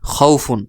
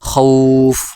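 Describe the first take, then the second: First: It ends with a full 'un' ending. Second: It stops on the consonant, vowel held longer. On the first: Reading continues without a stop. "উচ্চারণ বানান আগের মতোই করবেন" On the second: The reader stops at this word. "ওয়াকফ করলে খৌফ"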